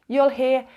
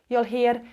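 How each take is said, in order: Both takes have the same delivery.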